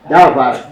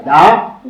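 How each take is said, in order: First: "davar" with the first syllable stressed, falling away; DA-var, the mistaken stress in "davar"; wrong stress on first syllable. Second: "davar" with the final syllable stressed, lifting at the end; da-VAR, rising onto the end of "davar"; stress on last syllable. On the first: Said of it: "tu ne vas pas dire". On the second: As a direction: say "davar" correctly as da-VAR, weight on VAR. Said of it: "tu vas dire da". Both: Shown as a demonstration.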